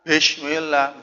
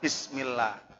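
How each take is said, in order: First: The first syllable ends in an 'sh' sound. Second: The first syllable ends in an 's' sound. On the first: The speaker calls it wrong. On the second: The speaker calls it right.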